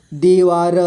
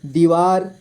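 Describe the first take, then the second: First: दीवार as दी, वा, र; letter by letter. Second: Said in the usual way. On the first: Shown as a demonstration. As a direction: sound the final र of दीवार separately. (दीवार को तोड़कर: दी, वा, र) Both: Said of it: "थोड़ा fast पढ़ेंगे".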